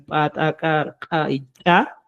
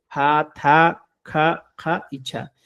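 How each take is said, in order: First: "pa, ta, ka, ka y cha" as glottalized pops; golpe seco. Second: "pa, ta, ka, ja y cha" as aspirated syllables; ligera exhalación. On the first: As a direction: hit each consonant of "pa, ta, ka, ka y cha" with a dry pop, no air. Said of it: "con golpe seco". ("pa, ta, ka, ka y cha" con golpe seco) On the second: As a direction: let a little air out on each consonant of "pa, ta, ka, ja y cha". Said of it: "como lo estoy pronunciando yo". ("pa, ta, ka, ja y cha" con ligera exhalación) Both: Shown as a demonstration.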